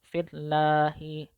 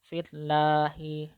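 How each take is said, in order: The two takes are said the same way.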